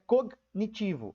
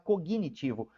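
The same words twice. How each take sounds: First: The g goes straight into the n. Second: An extra i sound follows the g. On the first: This is how the word is actually written. "Na verdade, essa palavra é cognitivo" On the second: This is how people usually say it in speech. "na pronúncia, a gente fala cognitivo"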